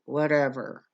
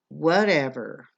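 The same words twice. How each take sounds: First: The word is muttered quietly under the breath. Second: The word is said out loud with attitude. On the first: "or they would mutter it" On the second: "they would say it in this certain tone"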